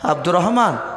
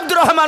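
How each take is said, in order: First: The name is said softly and gently. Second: The name is shouted loudly. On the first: This wakes the sleeper calmly. The speaker calls it right. "আস্তে করে ডাকো" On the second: This startles the sleeper awake. The speaker calls it wrong. "চিৎকার করে ডাকলে"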